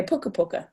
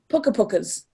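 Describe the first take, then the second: First: Puka puka with no S at all; correct Māori plural. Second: Puka pukas with an English S on the end; wrong plural pukas. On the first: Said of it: "You say puka puka". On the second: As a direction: say pukas, adding the S Māori doesn't have. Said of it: "you wouldn't say". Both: Shown as a demonstration.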